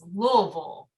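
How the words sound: It is pronounced carefully and clearly. "I'm trying to say it correctly as best I can"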